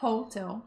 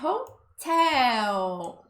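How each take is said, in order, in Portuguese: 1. O acento está na primeira sílaba. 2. O acento está na segunda sílaba. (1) "a gente tem a tendência de falar hotel" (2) "O tel é que é o mais forte"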